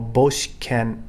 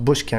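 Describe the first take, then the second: First: It is said in three syllables, bo-shi-ken. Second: It is said in two syllables, bush-ken. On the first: The speaker calls it right. "It's Boshiken with an O" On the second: The speaker calls it wrong. "That's very commonly mispronounced. Bushken, it's not"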